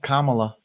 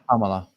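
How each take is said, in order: First: The first vowel is not an 'uh' sound. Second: The first vowel is an 'uh' sound. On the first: The speaker calls it wrong. "Jesus, I still do it" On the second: The speaker calls it right. "phonetically, it's more like K U M in a sound"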